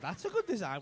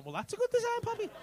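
First: Said in the usual way. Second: Much higher-pitched mock-impressed reply; mock admiration. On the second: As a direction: gush it way up high, teasingly. Acts out admiring reply to first take.

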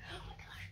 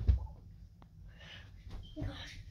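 First: Quick breathy whispered oh my gosh; whispered gasp. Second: Very slow, drawn-out whispered oh my gosh. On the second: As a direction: stretch it out in a whisper. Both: Real, not acted. Reacting to sour drink.

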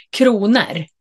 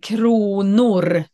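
First: "kronor" said as "kruner", casual ending; colloquial kronor. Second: "kronor" said as written, clear o in the ending; spelling pronunciation. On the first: Retold or imitated. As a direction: say "kronor" loosely like in everyday speech. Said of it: "de säger kronor". (vardagligt uttal av "kronor" som "kruner") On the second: Shown as a demonstration. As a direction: say "kronor" carefully, the way it is spelt. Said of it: "det är kronor när ni ska stava". ("kronor" uttalat som det stavas)

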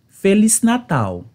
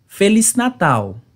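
No difference in how they are said.

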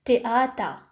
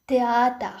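Both takes have the same delivery.

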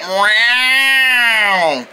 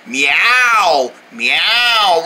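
First: Long drawn-out yowl; imitated creepy meow. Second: Short, lower, simple meows; demonstrated cat meow. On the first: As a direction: mimic a creepy cat's meow. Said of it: "It sounded like you said". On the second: Shown as a demonstration. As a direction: show your own ordinary meow, pitched low. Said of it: "No, I meow like this".

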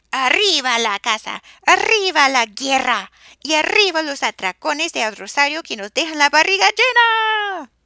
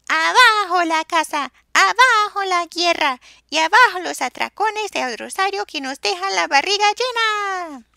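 First: Loud chanted battle cry; war chant shout. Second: High, loud hooted chant; hooting wail. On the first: Sisters chant their hunting cry, loud and fierce. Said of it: "y gritaban". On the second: Soso hoots his own peaceful version, high and loud. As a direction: hoot it high and long. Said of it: "Pues ululaba". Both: A narrator's reading.

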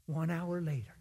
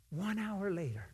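First: Said in the usual way. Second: One hour later with one stressed, softer. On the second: Shown as a demonstration. Preacher repeating the wait for emphasis, stressing one.

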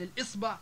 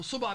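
First: Said in the usual way. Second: صبع as suba', no opening syllable; dropped hamza. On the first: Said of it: "بدل من الإصبع". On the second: Shown as a demonstration. Teacher giving examples, صبع without first hamza. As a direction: say صبع starting on the s. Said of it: "الهمزة القاطعة في العامية".

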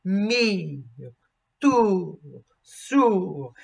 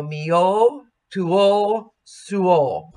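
First: Mio, tuo, suo with the second vowel barely touched; shadow vowel. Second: Mio, tuo, suo with both vowels given equal weight; wrong diphthong. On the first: Coach modelling the correct shadow second vowel. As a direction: sing through the first vowel, just a ghost of the second. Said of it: "shadow vowel". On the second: Coach showing singers the faulty even diphthong. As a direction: split each word into two even vowels. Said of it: "we have to be sure that we don't do that". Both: Shown as a demonstration.

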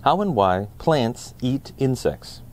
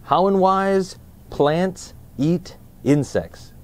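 First: Said in the usual way. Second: Slow, higher book-title announcement; drawn-out, lifted title read. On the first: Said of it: "read along with us". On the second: Shown as a demonstration. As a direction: present the title like a show host. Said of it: "Let's find out more in".

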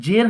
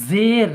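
First: জের with an initial j as in jam; j sound. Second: জের with an initial buzzing z, drawn out; z sound. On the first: Teacher contrasting two letters, জের spoken with jim's j. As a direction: say জের as "jer". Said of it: "জের হচ্ছে জিম দিয়ে". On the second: Teacher contrasting two letters, জের spoken with za's z. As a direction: say জের as "zeer". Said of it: "জা দিয়ে". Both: Shown as a demonstration.

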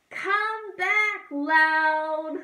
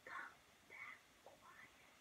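First: Loud, high, sung call. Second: Hushed whisper. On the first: Teacher sings the loud bird returning, loud and high. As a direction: belt it back. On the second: Teacher sings the quiet bird returning, whispering. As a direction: whisper it home. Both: Shown as a demonstration.

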